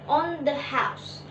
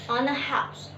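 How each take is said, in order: First: The word the begins with a th sound. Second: The word the begins with an n sound.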